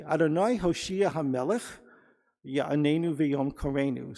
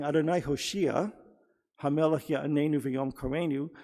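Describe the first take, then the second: First: "Adonai Hoshea Hamelech" run together, pause, then "Ya'anenu V'yom Karenu"; pause after Hamelech. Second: "Adonai Hoshea", pause, then "Hamelech Ya'anenu V'yom Karenu"; pause after Hoshea. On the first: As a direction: divide three and three, breaking after "Hamelech". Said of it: "they read it this way". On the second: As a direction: break the phrase straight after "Hoshea". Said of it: "instead of saying". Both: Shown as a demonstration.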